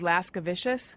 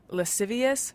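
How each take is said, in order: First: The word ends in an added 'vishus' sound. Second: The word ends in a plain 'ee-us' sound. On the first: The speaker calls it wrong. "was lascivicious" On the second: The speaker calls it right. "I used to think that uh, lascivious was"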